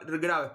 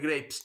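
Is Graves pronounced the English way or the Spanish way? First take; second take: Spanish; English. First: It is read out with Spanish sounds. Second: It is said with English sounds. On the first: This is how the name is written. "se escribe gra Graves" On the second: This is how the name is probably pronounced. "supongo que se pronunciará Robert Graves"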